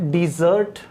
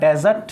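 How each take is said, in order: First: The stress is on the second syllable. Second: The stress is on the first syllable. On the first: It is a verb meaning to abandon. "As a verb use करूंगा तो इसका pronunciation होगा dessert ... second syllable पर stress है" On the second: It is a noun meaning a dry sandy region. "As a noun use करूंगा तो इसका pronunciation होगा डेजर्ट ... फर्स्ट सिलेबल पर स्ट्रेस है"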